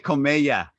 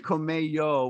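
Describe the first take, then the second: First: The name ends with an 'ah' vowel. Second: The name ends with an 'oh' vowel. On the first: The speaker calls it right. "I said it correctly" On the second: The speaker calls it wrong. "I didn't say Comello, which I said last time"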